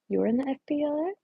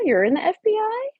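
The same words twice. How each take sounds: First: Said in the usual way. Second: High, louder startled question; can't believe what you just read; surprised. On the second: Real, not acted. Repeats the question to Estella.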